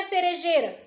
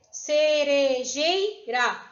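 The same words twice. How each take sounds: First: Said in the usual way. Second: "Cerejeira" slowly split ce-re-jei-ra; syllable by syllable. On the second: Shown as a demonstration. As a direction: sound out "Cerejeira" in four drawn-out beats. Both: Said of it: "Vai ter quatro sílabas".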